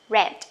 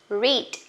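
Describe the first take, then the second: First: The vowel is short, rhyming with 'bed'. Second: The vowel is long, rhyming with 'need'. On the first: It is the past or past participle form. "for past form or past participle form, we say read" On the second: It is the present base form of the verb. "base form"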